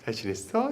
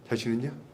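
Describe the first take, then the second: First: The greeting sounds warm and friendly. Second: The greeting sounds harsh and unfriendly.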